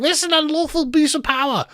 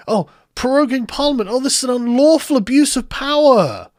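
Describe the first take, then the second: First: Very high-pitched put-on shriek; mock screaming. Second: Higher-pitched mocking complaint; mock outrage. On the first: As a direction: imitate a hysterical protester, voice shot right up. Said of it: "people like you screaming". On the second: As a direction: parody an indignant protest, pitched up. Mockingly voices Gina's complaint.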